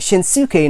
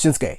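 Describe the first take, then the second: First: It is said with an American pronunciation. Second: It is said with a Japanese pronunciation. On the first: The speaker calls it wrong. "You don't pronounce it" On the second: The speaker calls it right.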